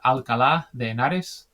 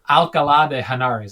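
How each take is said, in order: First: It is said with a Spanish accent. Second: It is said with an English accent.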